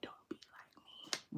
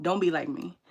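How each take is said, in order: First: Whispered and slowed down; soft whispered advice. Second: Said in the usual way. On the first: Shown as a demonstration. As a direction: breathe it as a hushed warning. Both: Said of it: "I'm like".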